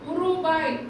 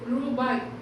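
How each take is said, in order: First: The word starts with an added u vowel. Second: The word starts directly with the r sound. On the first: The speaker calls it wrong. "உருபாய் அப்படின்னு படிக்கக்கூடாது" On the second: The speaker calls it right. "இதையும் ரூபாய் ஊ silent"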